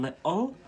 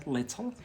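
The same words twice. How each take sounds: First: "little" slowed, with the t dropped; drawn-out Scottish glottal "little". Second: "little" with the t sounded; "little" as said in England, t pronounced; English "little". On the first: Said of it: "But here in Scotland". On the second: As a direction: say "little" with a clear t in the middle. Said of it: "in England, they say". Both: Shown as a demonstration.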